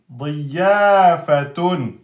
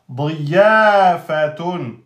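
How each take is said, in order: Both takes have the same delivery.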